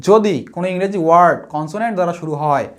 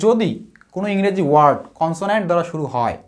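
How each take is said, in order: No difference in how they are said.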